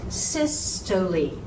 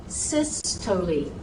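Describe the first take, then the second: The two takes are said the same way.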